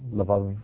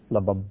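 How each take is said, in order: First: The word is said with a V sound. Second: The word is said with a B sound. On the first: "it can also be pronounced with a V sound" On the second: "normally bait is pronounced with a B sound"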